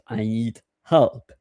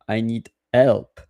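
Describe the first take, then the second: First: The h at the start of help is pronounced. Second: The h at the start of help is dropped. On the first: This is the usual English way. "and not" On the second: This is how French speakers tend to say it. "in French we don't pronounce the H"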